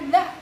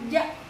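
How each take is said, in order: First: The tongue tip touches the upper front teeth. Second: It is said with a 'j' sound. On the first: The speaker calls it right. "bukan za" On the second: The speaker calls it wrong. "kebanyakan orang-orang itu menyebut za itu ... tetapi ja"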